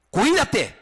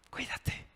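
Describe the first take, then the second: First: "Cuídate" snapped loud and higher as a threat; threatening warning. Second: "Cuídate" breathed softly, no voice; tender whisper. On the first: Pastor contrasts the word as a loud menace. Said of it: "Es lo mismo, la misma palabra". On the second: Hand on a friend's shoulder, a tender whisper. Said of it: "Le pongo la mano en el hombro". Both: Shown as a demonstration.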